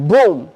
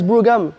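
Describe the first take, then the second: First: The word is said as one syllable. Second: The word is said with two syllables. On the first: The speaker calls it right. "Non, c'est Broom" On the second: The speaker calls it wrong. "j'essayais de le prononcer et quand je disais ah, nice Brougham, ils se moquaient de moi"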